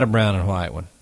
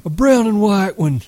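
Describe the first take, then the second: First: Said in the usual way. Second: High-pitched, eager outburst; excited cry. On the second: A narrator's reading. Lenny begging George for a pup, crying excitedly. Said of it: "Lenny cried excitedly".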